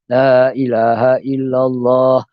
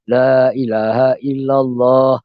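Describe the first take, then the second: The two takes are said the same way.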